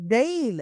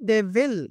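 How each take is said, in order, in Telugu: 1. ఇది ఒకే చిన్న అక్షరంలా పలుకుతారు. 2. ఇది రెండు పూర్తి, వేరు వేరు పదాలుగా పలుకుతారు.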